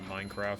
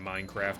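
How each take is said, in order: First: It is said with a British-sounding vowel. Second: It is said with an American-sounding vowel. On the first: It is the way the speaker has always said it. "instead of Minecraft" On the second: It is picked up from watching Americans. "slowly just saying Minecraft instead of"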